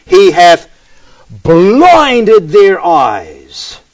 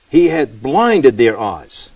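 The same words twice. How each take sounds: First: "blinded" loud and drawn right out; very slow, forceful verse reading with "blinded" stretched; emphatic BLINDED. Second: Said in the usual way. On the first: Shown as a demonstration. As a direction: lean hard and long on "blinded". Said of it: "the emphasis here is on the action of God".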